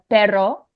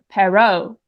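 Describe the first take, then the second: First: It has native Spanish vowels, stress and r. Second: It has shifted stress, changed vowels and another r. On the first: The speaker calls it right. "quite easy to understand" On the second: The speaker calls it wrong. "I'm moving the stress and I'm pronouncing it with different vowels"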